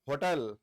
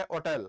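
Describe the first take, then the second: First: होटल with a clear h, ho-tel; होटल with the h sounded; hotel with h. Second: होटल said otel, h dropped; होटल with no h sound; hotel without h. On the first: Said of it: "एक इसका उच्चारण क्या बच्चों". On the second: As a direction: say होटल with a silent h. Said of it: "और एक इसका उच्चारण क्या है". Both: Shown as a demonstration.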